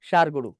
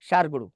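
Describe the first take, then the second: No difference in how they are said.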